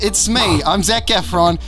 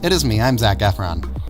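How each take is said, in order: First: It is spoken in a British accent. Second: It is spoken in an American accent. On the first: "my regular dialect" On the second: "this fake American accent"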